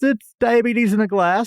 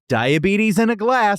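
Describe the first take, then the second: First: It is delivered in an offhand, casual way. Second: It is delivered as a punchy mic-drop line.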